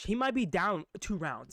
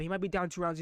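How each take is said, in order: First: He might be down two rounds, drawn out slowly; measured and deliberate; slow, weighty. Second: Said in the usual way. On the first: Shown as a demonstration. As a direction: lean on "be", slowly. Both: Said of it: "This might even happen".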